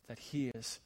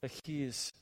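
The two takes are said the same way.

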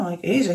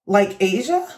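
First: LIKE ASIA as a statement, no question lift; retold answer, "Asia" stated rather than asked; confirming answer. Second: LIKE ASIA as a question, rising at the end; retold query, "Asia" lifting upward; questioning echo. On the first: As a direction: confirm "like Asia" without rising. She confirms her name. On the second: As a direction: ask "like Asia" with a rising tune. Coworker questions her name.

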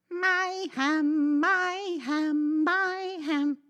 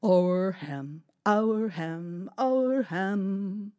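First: High, loud sung chant; sung, greedy singsong. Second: Sung happy chant; singsong chant. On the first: Cat sneakily singing that the ham is hers. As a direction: sing it higher, claiming it all. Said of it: "she sang". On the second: Dog carrying the ham home, singing contentedly. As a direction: chant it as a sing-song tune. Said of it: "he sang". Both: Acted.

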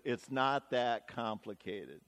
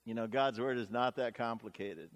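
First: Voiceover. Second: Said in the usual way. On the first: Retold or imitated. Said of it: "the voiceover comes and says".

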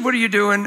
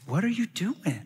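First: Said in the usual way. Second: Soft, higher voice imitating a woman; imitated wife, softly stopping him; hushed serious question. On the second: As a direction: ask it quietly, in earnest disbelief. She asks again, now seriously.

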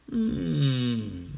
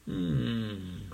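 First: A firmer, louder hmm. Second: Said in the usual way. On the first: Acted. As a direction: hum it louder. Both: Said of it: "a lot louder".

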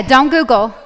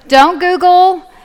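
First: Said in the usual way. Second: "Don't Google" slow, high and loud; emphatic repeat. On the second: Real, not acted. Teacher warning students off quick answers, emphatic "Don't Google". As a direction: draw out "Don't Google", pitched up and louder.

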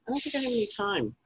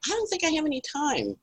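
First: High, quieter fretful repeat; fretting, a bit softer. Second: High, fretful inner voice; fretting to herself. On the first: Repeating her worry while cooking, high and softer. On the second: Retelling cooking, she frets in a high voice. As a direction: squeak it out like you're in a panic. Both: Retold or imitated. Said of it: "And I'm like".

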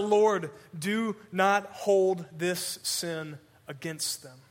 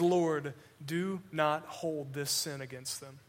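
First: Drawn-out slow plea; dying man crying out for his killers, slow; earnest cry. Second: Soft, slow plea; dying man forgiving his killers, softer and slow; gentle forgiveness. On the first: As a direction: stretch every word, pleading for them. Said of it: "He cries out". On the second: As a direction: hush it like a blessing. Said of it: "the last thing that he says". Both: Acted.

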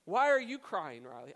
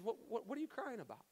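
First: Exaggerated harshness. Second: Soft, stammered question, pitched up; less harsh. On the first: Dad demanding answers from his crying daughter, overly harsh. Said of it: "I wasn't that harsh with her". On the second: Retold or imitated. Dad asking his crying daughter what's wrong, less harsh. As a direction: ask softly, toning down the harshness. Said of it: "I wasn't that harsh with her, but I said".

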